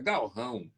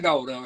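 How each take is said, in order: First: The l before r is sounded as l. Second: The l before r is sounded like u. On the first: The speaker calls it right. "é galrão" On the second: The speaker calls it wrong. "não é gaurão"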